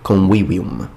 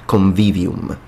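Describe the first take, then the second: First: It uses the classical Latin pronunciation. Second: It uses a non-classical Latin pronunciation.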